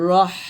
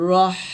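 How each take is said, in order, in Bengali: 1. শেষের h একটি চিকন বাতাসের শিস। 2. শেষের h একটি চিকন বাতাসের শিস।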